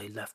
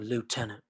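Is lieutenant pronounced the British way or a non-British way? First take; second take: British; non-British. First: It is pronounced the British way. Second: It is pronounced the non-British way. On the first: "in the United Kingdom, we say lieutenant" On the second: "instead of saying lieutenant"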